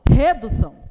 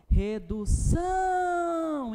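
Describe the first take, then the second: First: The stress is on the first syllable. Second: The stress is on the last syllable. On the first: The speaker calls it wrong. "Não, desculpa, tá?" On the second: The speaker calls it right. "é a sílaba que mais se estende"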